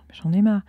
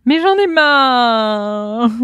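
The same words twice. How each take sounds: First: Said in the usual way. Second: Loud, high, long-drawn mock complaint; hammed-up fed-up cry; mock exasperated wail. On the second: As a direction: wail it out hugely, stretching the last word. Mock outburst, then laughs.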